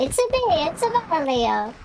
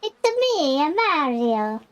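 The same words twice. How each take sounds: First: Mock Italian "It's a me, it's a Mario" with added a's; a hammed-up cartoon Italian plumber; Mario impression. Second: High Italian Mario voice on "It's me"; Mario impression. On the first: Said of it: "I can go". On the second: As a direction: jump high for a cartoon Italian plumber. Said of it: "I sound like".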